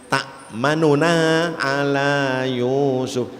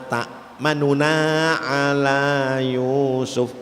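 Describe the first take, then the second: No difference in how they are said.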